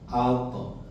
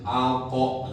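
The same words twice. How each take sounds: First: The ending sound bounces lightly and naturally. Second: The ending sound is pressed and drawn out. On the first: The speaker calls it right. "Kayak bola alami mambul" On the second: The speaker calls it wrong. "Kalau ditekan, kayak ditarik"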